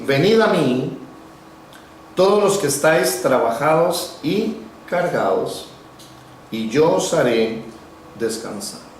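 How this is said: It is said with pauses between the phrases.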